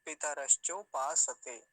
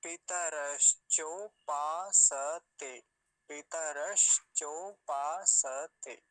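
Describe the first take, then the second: First: Measured, firm, syllables joined up; normal connected recitation. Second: Very slow, loud, drawn-out syllables; slowed right down. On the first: Teacher showing the proper even tone, connected recitation. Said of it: "विधिवत कैसे बोलेंगे एक सामान्य स्वर में". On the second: Teacher slowing his speed for learners, very slow syllables. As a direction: stretch every syllable far apart. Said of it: "धीरे speed करता हूं". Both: Shown as a demonstration.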